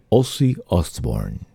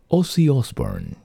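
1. El nombre se dice lento y seductor. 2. El nombre se dice rápido y sencillo.

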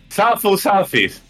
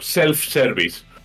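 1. Se dice con sílabas y vocales de estilo japonés. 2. Se dice con sonidos ingleses normales.

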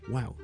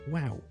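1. 这句话说得音调高、很兴奋。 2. 这句话说得音调高、很兴奋。

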